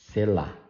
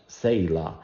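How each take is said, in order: First: The stress is on the last syllable. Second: The stress is on the first syllable. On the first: "in Portuguese, it is pronounced sela, sela, the stress in the last syllable" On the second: "I hear people putting a little A in the first syllable"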